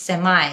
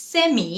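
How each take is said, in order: First: "সেমাই" as SEM-eye; American pronunciation. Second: "সেমি" as SEM-ee, high pitch; British pronunciation. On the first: Teacher gives learners the alternative, "সেমাই" as American SEM-eye. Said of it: "American উচ্চারণ". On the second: Teacher asks learners which is right, "সেমি" as British SEM-ee. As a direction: end "সেমি" on EE. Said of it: "British উচ্চারণ". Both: Shown as a demonstration.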